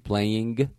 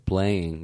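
First: The ending is said with a clear hard g. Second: The ending is said plainly, with no hard g.

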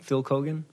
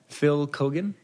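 First: The name is said fast. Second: The name is said slowly.

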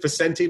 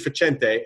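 First: The name is said with an American pronunciation. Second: The name is said with an Italian pronunciation. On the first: This is how the family name came to be said after immigrating. The speaker calls it wrong. "it's Americanized. They pronounce it Facenti" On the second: This is the original form of the family name. The speaker calls it right. "but it should be Facente"

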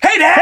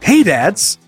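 First: It is said excitedly, like an exclamation. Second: It is said flatly, without excitement.

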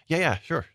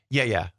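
First: It sounds agreeable, like a willing yes. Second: It sounds dismissive, like shooing someone away.

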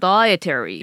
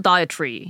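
First: It is said with an American accent. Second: It is said with a British accent.

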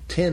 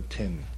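First: The word is said short and quick. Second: The word is stretched out and drawn long.

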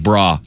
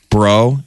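First: The word ends in an 'ah' vowel. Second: The word ends in an 'oh' vowel. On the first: The speaker calls it right. "they said the bra. Everything was bra" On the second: The speaker calls it wrong. "Is either bro or bro? No"

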